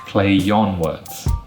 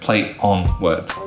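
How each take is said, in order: First: A y sound joins play to on smoothly. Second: Play and on are separated without linking. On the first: The speaker calls it right. "it becomes play yon" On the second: The speaker calls it wrong. "That's not smooth, it's not native, it's not fluent"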